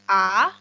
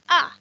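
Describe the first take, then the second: First: It is said with the second tone, rising. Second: It is said with the fourth tone, falling. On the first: "yang kedua a" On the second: "yang keempat a"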